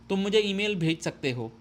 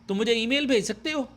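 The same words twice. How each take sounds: First: It is said as a plain statement. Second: It is said with a questioning tune.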